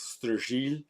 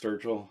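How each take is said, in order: First: The surname is said the old French way. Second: The surname is said the modern way. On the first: "the old pronunciation, old world" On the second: "I'll just go with"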